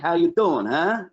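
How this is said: It is said as a New York greeting.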